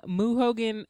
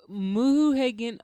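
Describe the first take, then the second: First: "Hogan" with an OH vowel; "Hogan" pronunciation. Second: "Hagan" with an AY vowel; "Hagan" pronunciation. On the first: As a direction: draw out "Moo Hogan", first vowel as in hoe. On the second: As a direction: stretch "Moo Hagan", first vowel as in hay. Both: Shown as a demonstration. Nickname said two ways.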